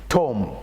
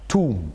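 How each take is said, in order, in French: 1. La voyelle se prononce comme le 'o' de 'top'. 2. La voyelle se prononce comme le 'oo' de 'too'. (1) "On avait l'habitude de prononcer ça comme ça" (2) "Frère Zach a prononcé ça"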